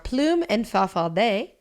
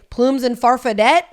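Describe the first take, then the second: First: The names are said with a French accent. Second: The names are said with an American accent. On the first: The speaker calls it right. "it was said to me that their names are Plume and Farfadet is how you'd say it" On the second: The speaker calls it wrong. "if I say it American"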